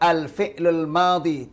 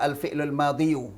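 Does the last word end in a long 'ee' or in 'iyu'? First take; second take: long ee; iyu. First: The last word ends in a long 'ee' sound. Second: The last word ends with an added 'yu' syllable. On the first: The speaker calls it right. "Kalau pakai level al-fi'lul madi" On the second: The speaker calls it wrong. "tidak boleh baca al-fi'lul madiyu"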